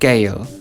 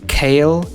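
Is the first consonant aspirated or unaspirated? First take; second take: unaspirated; aspirated. First: The first consonant has no puff of air. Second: The first consonant has a puff of air.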